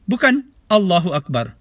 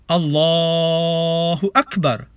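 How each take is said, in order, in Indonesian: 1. Vokal dalam Allahu dipendekkan menjadi satu ketukan. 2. Vokal dalam Allahu dipanjangkan jauh melebihi dua ketukan. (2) "bunyi A ini boleh dipanjangkan ikut selera"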